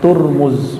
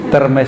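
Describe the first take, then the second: First: The first syllable has a u vowel. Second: The first syllable has an e vowel. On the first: "bukan Turmuz" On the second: "tapi Termes itu kita yang baca, itu E nya dibaca I"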